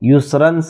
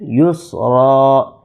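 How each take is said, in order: First: The word ends with a full -ran ending. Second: The word ends on a long -a sound. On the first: The reciter keeps going without pausing. "युसरन से युस्रा" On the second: The reciter pauses at this word. "युसरन से युस्रा"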